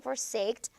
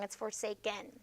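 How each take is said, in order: First: Forsaked said as the wrong form with a -ed ending. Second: Forsaken said correctly with the -en ending, softly; correct form forsaken. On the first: Teacher quoting a student's wrong forsaked. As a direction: quote the wrong forsaked back plainly. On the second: Teacher giving a student the correct forsaken. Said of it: "you can't forsaked". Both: Shown as a demonstration.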